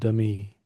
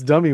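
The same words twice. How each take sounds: First: The word is said slowly, with a gap between syllables. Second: The word is said quickly, syllables run together. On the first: "she pronounces it a little slower, as in dummy" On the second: "it's dummy when you say it faster"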